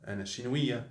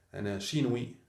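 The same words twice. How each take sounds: The two takes are said the same way.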